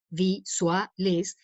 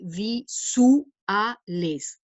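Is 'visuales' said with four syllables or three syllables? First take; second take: three; four. First: The word is said with three syllables. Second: The word is said with four syllables. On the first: "normalmente ahí habría un diptongo" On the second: "con la diéresis, esto se lee visuales, cuatro sílabas"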